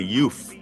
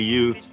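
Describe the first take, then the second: First: The word ends with an f sound. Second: The word ends with a th sound. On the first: "they would say youth, ... That's called T H fronting" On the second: "they wouldn't say youth"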